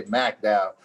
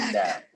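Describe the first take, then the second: First: "McDowell" pronounced "Mack-Dowell"; local pronunciation. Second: "McDowell" pronounced "Mick-Dowell"; short "i" sound at the start of "McDowell"; rejected pronunciation. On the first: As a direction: say "McDowell" with a first syllable like "Mack". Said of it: "You heard me say McDowell". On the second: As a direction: say "McDowell" with a first syllable like "Mick". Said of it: "not McDowell". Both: Shown as a demonstration.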